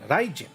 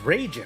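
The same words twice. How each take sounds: First: The first syllable sounds like Japanese 'rai'. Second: The first syllable sounds like English 'ray'. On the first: The speaker calls it right. "the Japanese pronunciation" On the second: The speaker calls it wrong. "we only knew R A I as like Ray"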